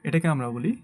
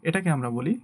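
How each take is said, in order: No difference in how they are said.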